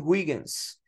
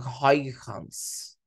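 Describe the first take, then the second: First: The name is said with Portuguese-style sounds. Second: The name is said with Dutch sounds.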